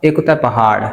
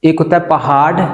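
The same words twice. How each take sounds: First: Teacher showing the ड़ sound in पहाड़; flapped t. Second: Said in the usual way. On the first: Shown as a demonstration. Pronunciation teacher demonstrating the flap in पहाड़. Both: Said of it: "टी को आपने अड़े का sound देना है".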